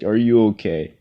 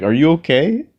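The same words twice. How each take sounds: First: Said in the usual way. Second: High, loud mock concern from the car window; driver asking. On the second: Driver leaning out to a walker, mock concerned asking. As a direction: ask it up high like a nosy driver.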